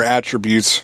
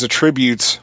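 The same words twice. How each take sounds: First: "attributes" stressed on the first syllable; alternate pronunciation. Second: "attributes" stressed on the second syllable; alternate pronunciation. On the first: Reviewer offering the other way to say it, "attributes" as AT-trih-byoots. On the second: Reviewer offering one way to say it, "attributes" as uh-TRIB-yoots. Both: Shown as a demonstration. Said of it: "however you wanna pronounce it".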